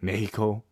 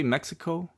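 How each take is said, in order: First: Mexico as "MEH-hee-ko", h for the x; Spanish pronunciation. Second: Mexico as "MEK-si-koh", with a ks; English pronunciation. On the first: Co-host showing how Mexicans say it, Spanish pronunciation. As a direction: say Mexico as a Spanish speaker would. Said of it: "somebody speaking Spanish would say it". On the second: Co-host challenging the host, English pronunciation. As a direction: say Mexico the anglicized way. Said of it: "do you say". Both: Shown as a demonstration.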